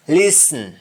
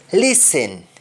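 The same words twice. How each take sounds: First: Sung, LISTEN as "lis-n"; sung, Jamaican syllabic N in LISTEN; Jamaican humming. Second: LISTEN with full "sen"; English-style vowel ending on LISTEN; English pronunciation. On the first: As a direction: hum the end of LISTEN. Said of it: "That is harming". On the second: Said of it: "we don't say happen". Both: Shown as a demonstration.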